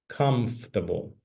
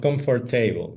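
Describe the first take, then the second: First: The middle 'or' is dropped, three syllables. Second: The middle 'or' is fully pronounced, four syllables. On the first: The speaker calls it right. "The pronunciation is comfortable. ... letter O and letter R are completely silent" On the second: The speaker calls it wrong. "Not comfortable"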